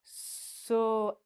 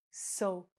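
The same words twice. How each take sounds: First: "soap" clipped and unnatural; wrong soap. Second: "soap" slow with a long o; right soap. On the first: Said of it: "we don't say". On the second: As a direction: say "soap" slowly and clearly. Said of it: "We say soap". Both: Shown as a demonstration.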